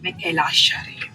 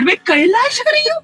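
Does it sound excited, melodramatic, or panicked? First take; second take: melodramatic; excited. First: It sounds like over-the-top TV serial drama. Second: It sounds happily excited.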